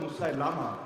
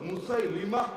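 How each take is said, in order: First: The vowel before the final syllable is 'a'. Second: The vowel before the final syllable is 'i'. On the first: The speaker calls it wrong. "যদিও অনেকে বলে" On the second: The speaker calls it right. "শুদ্ধ উচ্চারণ"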